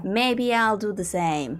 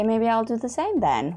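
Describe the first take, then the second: First: Slowly stretched musing; mulling it over slowly; drawn-out repeat. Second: Said in the usual way. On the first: Real, not acted. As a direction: draw the words out slowly.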